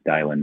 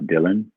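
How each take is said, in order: First: The first vowel sounds like the 'i' in 'dial'. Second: The first vowel sounds like the 'i' in 'dill'. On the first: The speaker calls it right. "sounds like you're dialing a phone" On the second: The speaker calls it wrong. "not Dylan"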